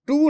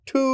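First: The t is plain and unaspirated. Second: The t is breathy and aspirated, like ঠ. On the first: The speaker calls it wrong. "টু না" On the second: The speaker calls it right. "আসলে সঠিক উচ্চারণ হলো কি একটু ঠয়ের দিকে"

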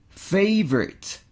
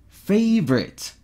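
Both takes have the same delivery.

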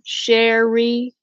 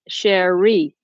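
First: The stress falls on the first syllable. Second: The stress falls on the second syllable. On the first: The speaker calls it wrong. "Is the emphasis on the first syllable?" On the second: The speaker calls it right. "Or Cherie? Second syllable"

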